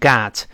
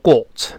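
First: The word is said with an American accent. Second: The word is said with a British accent. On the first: "美国人读成got" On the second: "英国人读成got"

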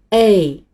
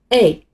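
First: The vowel is held and drawn out long. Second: The vowel is said short, like a quick reply. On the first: "但是要把声音拉长，再读一次A" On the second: "你回应一声A"

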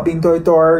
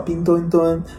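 First: The last syllable ends with an added r-sound. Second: The last syllable ends plainly, with no r-sound. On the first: The speaker calls it wrong. "不要擅自加儿化音" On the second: The speaker calls it right. "人家叫冰墩墩"

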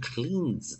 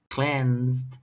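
First: The vowel is a long ee sound. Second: The vowel is a short e sound. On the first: The speaker calls it wrong. "不要念cleansed 的啊" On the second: The speaker calls it right. "这它是念cleansed 的"

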